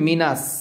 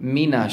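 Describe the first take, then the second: First: The word ends in a plain 's' sound. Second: The word ends in a full 'sh' sound. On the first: The speaker calls it wrong. "যদি আপনি মিনাস বলেন তাহলে কিন্তু হবে না" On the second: The speaker calls it right. "এই শিনটাকে তাফাস্সি করতে হবে"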